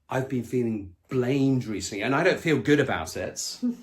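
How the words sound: It is said in an aggressive, hostile tone. The speaker is blaming the other person. The speaker calls it wrong. "with aggression in the voice"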